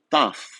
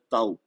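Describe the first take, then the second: First: The letter name ends with an f sound. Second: The letter name ends with a u sound. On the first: This is the Greek pronunciation. "em grego isso é pronunciado taf" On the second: This is the Portuguese pronunciation. "Em português o nome dessa letra é tau"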